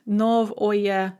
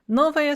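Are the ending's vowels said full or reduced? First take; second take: full; reduced. First: The ending is said with full o-ye vowels. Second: The ending is said with reduced a-ya vowels. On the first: This is how the word is spelled. "But you write novoye" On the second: This is how the word is actually spoken. "because of vowel reduction, ... you are going to say novaya"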